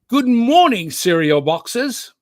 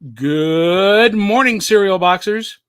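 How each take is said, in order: First: It is said in a British accent. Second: It is said in his own plain accent.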